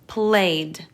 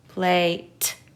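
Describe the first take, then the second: First: The ending is a d sound. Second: The ending is a t sound. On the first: The speaker calls it right. "the ed in this case is saying d" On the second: The speaker calls it wrong. "that sounds like a word, but not the one we're looking for"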